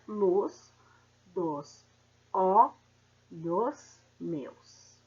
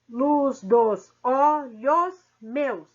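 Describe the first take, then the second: First: Each word's syllables are said separately. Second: Syllables are linked across the word boundaries. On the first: This is the grammatical syllable division. "seguindo a gramática" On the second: This is the metrical syllable division. "separação poética ou métrica"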